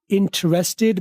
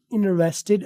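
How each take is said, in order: First: Interested in British English with the first t said clearly; interested said slowly with a British t; British pronunciation. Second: Interested in American English with the first t dropped, inresteɖ; interested said slowly with an American dropped t; American pronunciation. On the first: Teacher showing the British interested. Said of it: "British". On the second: Teacher showing the American interested. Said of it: "American". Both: Shown as a demonstration.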